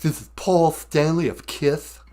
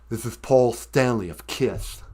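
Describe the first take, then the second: First: A lisped "Kiss" with DJ lift. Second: Slight lisp on "Kiss". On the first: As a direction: lisp "Kiss" in a radio intro. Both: Shown as a demonstration. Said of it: "has a slight lisp".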